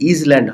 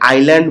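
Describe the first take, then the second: First: It has a z sound before the l. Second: It has no z sound before the l. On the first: The speaker calls it wrong. "এই এসটা উচ্চারিত হবে না" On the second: The speaker calls it right. "এখানে আমি এটাকে আইল্যান্ড বলছি"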